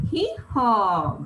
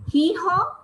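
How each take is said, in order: First: Said in the usual way. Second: Mule bray. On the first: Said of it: "So what is the answer?". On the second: Retold or imitated. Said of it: "Who does that?".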